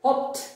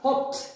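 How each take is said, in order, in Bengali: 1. শব্দটি t উচ্চারণে শেষ হয়। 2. শব্দটি t উচ্চারণে শেষ হয়।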